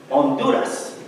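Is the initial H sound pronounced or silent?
silent. It is said with a Spanish accent and silent H. "the H is silent. I'm saying it in Spanish"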